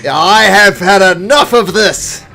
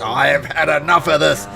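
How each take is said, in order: First: Slow, much higher, booming shout; fed-up roar. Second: Louder, forceful but contained cry; fed-up outburst. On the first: Captain fed up before attacking, furious roar. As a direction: bellow it out, each word drawn out. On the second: Captain about to hack the mouther, loud fed-up cry. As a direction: declare it loudly, patience gone. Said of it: "he's just". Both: Acted.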